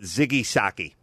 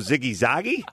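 First: The second word begins with an S sound. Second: The second word begins with a Z sound. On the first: The speaker calls it wrong. "I called it Ziggy Socky" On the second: The speaker calls it right. "oh, Ziggy Zoggy?"

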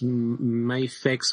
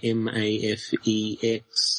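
First: The name is said as one word. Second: The name is spelled out letter by letter. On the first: "do we pronounce this Mafex" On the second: "or are we just going to say M-A-F-E-X?"

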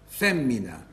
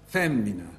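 The two takes are said the same way.

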